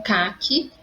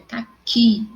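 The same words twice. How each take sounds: First: "caqui" said CÁ-qui, first syllable stressed. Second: "caqui" said slowly, ca-KI, final syllable stressed; stress on last syllable. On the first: Teacher showing the colour word, "caqui" stressed on CA. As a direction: hit the CA at the start of "caqui". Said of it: "a sílaba mais forte é o K". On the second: Teacher showing the fruit word, slow "caqui" stressed on KI. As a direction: slowly push the KI at the end of "caqui". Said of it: "a sílaba mais forte, que". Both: Shown as a demonstration.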